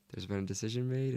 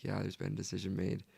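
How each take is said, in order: First: Rising, unsure tune on "made"; questioning rise. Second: Falling, settled tune on "made"; flat confirmation. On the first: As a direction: ask "There's been a decision made?" with a rising end on "made". Herself asking the mission president. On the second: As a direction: state "there's been a decision made" flatly, with a falling end on "made". Mission president confirming the decision. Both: Retold or imitated.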